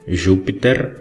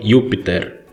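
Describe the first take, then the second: First: It is said with ecclesiastical Latin pronunciation. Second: It is said with reconstructed classical Latin pronunciation. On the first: "na pronúncia eclesiástica" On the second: "na pronúncia reconstituída vocês leriam"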